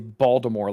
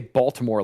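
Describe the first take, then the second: First: The T is dropped and the word is slurred. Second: The T in the middle is clearly pronounced. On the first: The speaker calls it wrong. "like a dipshit" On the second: The speaker calls it right. "like a correct human"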